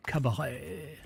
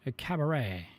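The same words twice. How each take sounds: First: "Cabaret" with a drawn-out French accent. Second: Said in the usual way. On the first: Shown as a demonstration. Streamer showing how "Cabaret" has to be said, French accent. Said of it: "say it with a French accent". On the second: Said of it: "kinda have to say it".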